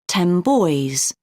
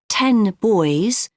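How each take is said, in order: First: Ten ends with an m sound. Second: Ten ends with a clear n sound.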